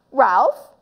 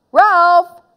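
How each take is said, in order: First: "Ralph" with rising, uncertain tune; questioning call. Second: High, loud call of "Ralph". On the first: Boy wondering where Ralph went, questioning rise on "Ralph". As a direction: ask "Ralph" with the pitch rising. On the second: Boy calling his vanished friend, loud high call. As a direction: call the name sharply across the room. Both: Acted.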